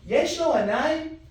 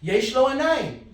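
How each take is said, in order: First: It is said with a questioning tune. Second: It is said with a statement tune. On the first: Asking whether he has eyes. "Notice the tone. I'm asking the question" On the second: Stating that he has eyes. "if he has the eyes... the tone and inflection as well"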